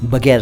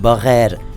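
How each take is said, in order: First: The middle consonant is a plain g sound. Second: The middle consonant is a throaty gh sound. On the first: The speaker calls it wrong. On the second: The speaker calls it right.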